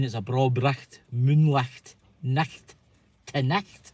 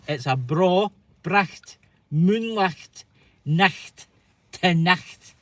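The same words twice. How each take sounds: First: "bracht, moonlicht, nacht" with a throaty ch before the t; Scots phrase. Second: Slow, separated "bra bracht... moonlicht... nacht... te nacht", throaty ch before each t; Scots phrase demo. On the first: Host asking what the phrase means, Scots "bra bracht, moonlicht, nacht" at conversational strength. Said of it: "say it along with me". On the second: Host has Americans say it along, slow demonstrated "bra bracht, moonlicht, nacht, te nacht". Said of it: "try and say it along with me". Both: Shown as a demonstration.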